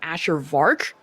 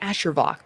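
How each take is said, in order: First: The surname is said with an R sound. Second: The surname is said without an R sound. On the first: The speaker calls it wrong. "people either pronounce my name Asher Vark for some reason ... Where the hell is the R?" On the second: The speaker calls it right. "It's Asher Vok"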